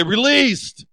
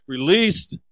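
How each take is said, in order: First: "Released" called out high and louder. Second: Said in the usual way. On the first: Shown as a demonstration. Pastor leading the congregation's response, "Released" called out. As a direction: lift "Released" up for the crowd to echo. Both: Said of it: "Come on, say it".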